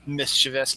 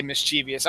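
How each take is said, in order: First: "mischievous" as MIS-chuh-vus, low and soft; dismissive "mischievous" stressed on MIS; three-syllable mischievous. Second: "mischievous" as mis-CHEE-vee-us; stubborn "mischievous" with an extra EE; four-syllable mischievous. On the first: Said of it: "I don't care what they say". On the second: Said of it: "I'm still gonna say". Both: Shown as a demonstration.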